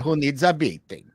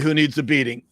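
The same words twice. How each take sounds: First: It is said in a Hungarian accent. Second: It is said in the speaker's ordinary accent.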